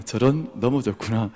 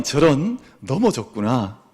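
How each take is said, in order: First: Unhurried "저런. 넘어졌구나." in an easy, steady voice; calm and gentle. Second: Slow, even "저런. 넘어졌구나." without alarm; calm and gentle. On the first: Teacher shows parents how to calmly answer a fall. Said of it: "평안하게 이야기를 건네주는 겁니다". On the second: Parent calmly soothing a fallen child, gentle and slow. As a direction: say "넘어졌구나" slowly and evenly, like nothing bad happened. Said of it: "평안하게 이렇게 이야기를". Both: Shown as a demonstration.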